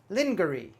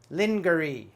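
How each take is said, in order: First: It is pronounced as the spelling suggests. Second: The same.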